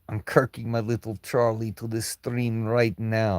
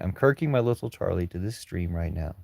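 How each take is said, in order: First: It is read in a put-on Russian accent. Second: It is read in a plain American accent. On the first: The commenter is taken to be a mocking foreign troll. The speaker calls it wrong. "I'm sorry if I read that in Russian" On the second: The commenter is taken to be an ordinary person. The speaker calls it right. "I read it in American the second time"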